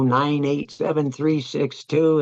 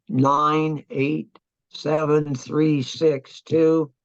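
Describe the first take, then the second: First: Said in the usual way. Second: Each digit read out slowly and deliberately; measured slow read of coordinates; slow dictation. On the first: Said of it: "and he would go". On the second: Retold or imitated. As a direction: spell the grid numbers out one at a time for the radio man. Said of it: "because I would tell him".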